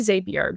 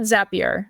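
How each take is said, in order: First: The first syllable does not sound like zap. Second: The first syllable sounds like the word zap. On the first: "Some people say Zapier" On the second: "I call it Zapier. ... like it's Zap, right?"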